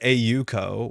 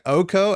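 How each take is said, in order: First: The name is said as separate letters. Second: The name is said as one smooth word. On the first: "in theory, it's A U co" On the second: "Oko, as you would say"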